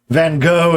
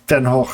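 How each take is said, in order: First: It has an English-style pronunciation with a hard g. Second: It has a Dutch pronunciation with throaty fricatives. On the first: "what most Americans say, and that's a reasonable anglicization" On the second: "phonetically not part of native English"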